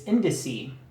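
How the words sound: The word is pronounced with English sounds. "But in English, it's indice"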